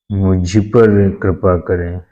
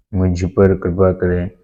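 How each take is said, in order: First: Slow, leaning on the word पर; stress on पर. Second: Said in the usual way. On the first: Shown as a demonstration. Teacher showing the correct phrase, slow stress on पर. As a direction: spell out the correct मुझ पर with weight on पर.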